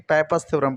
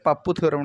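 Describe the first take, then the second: First: The name is said as 'paipas'. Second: The name is said as 'pappu'. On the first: The speaker calls it right. "पाइपास theorem पढ़ते हैं" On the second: The speaker calls it wrong. "पूरी तरीके गलत है"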